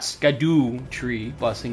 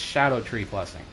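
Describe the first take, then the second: First: The first word begins with an sk sound. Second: The first word begins with an sh sound. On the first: The speaker calls it wrong. "it's not Skadoo tree blessing" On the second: The speaker calls it right. "That's how it actually is pronounced"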